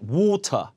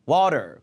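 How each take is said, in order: First: The t is a clear hard t sound. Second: The t is a soft r-like flap. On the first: This is the British way. "영국에서는 water, water 해가 T 발음 해요" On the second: This is the American way. "르 발음으로"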